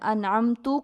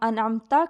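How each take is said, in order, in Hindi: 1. शब्द 'u' स्वर पर खत्म होता है। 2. शब्द 'a' स्वर पर खत्म होता है।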